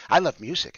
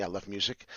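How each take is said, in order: First: "I love music" louder and higher; emphatic repeat. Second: Said in the usual way. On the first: Real, not acted. Host shames himself before viewers, "I love music" said loudly. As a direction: insist on "I love music", raising the voice.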